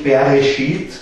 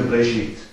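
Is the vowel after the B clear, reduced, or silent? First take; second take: clear; silent. First: The vowel after the B is a clear E. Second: There is no vowel at all after the B. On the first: "es ist nicht ein so ein klares E danach, also es ist nicht Bereshit" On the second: "Manche Hebräer sagen dann wirklich nur Bereshit. Also dann ist es überhaupt ganz stumm"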